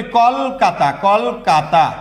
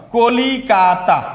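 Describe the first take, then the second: First: কলকাতা slowly as kol-ka-ta, three beats; three-syllable form. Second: কলিকাতা slowly as ko-li-ka-ta, four beats; four-syllable form. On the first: Teacher shows the word's other form, three-syllable form. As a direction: hold the closed kol in কলকাতা, no i after l. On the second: Teacher shows one word's two forms, four-syllable form. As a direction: draw out the li in the middle of কলিকাতা. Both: Shown as a demonstration. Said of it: "একটা শব্দ দুইভাবে লেখা যায়".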